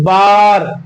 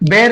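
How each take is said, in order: First: The vowel sounds like 'ah'. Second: The vowel sounds like 'eh'. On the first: The speaker calls it right. "बल्कि क्या पढ़ेंगे, बार" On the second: The speaker calls it wrong. "बेर नहीं पढ़ेंगे"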